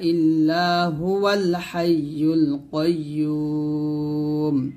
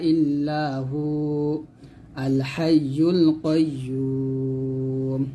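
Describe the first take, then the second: First: The 'hu' runs straight into 'al hayyul'. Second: The 'hu' is held, then 'al hayyul' begins separately. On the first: "এই দুটো যদি একসাথে মিলাই পড়ি তাহলে এরকম পড়বেন" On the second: "অক্ষ ধরলে হুতে আমরা এক টান দিব"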